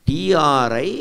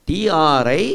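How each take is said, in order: No difference in how they are said.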